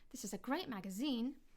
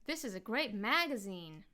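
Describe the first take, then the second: First: The pitch rises on the last syllable. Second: The pitch changes on the first syllable. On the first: This is the British way. "my pitch went up a little bit on zine" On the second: This is the American way. "In American English, they would say"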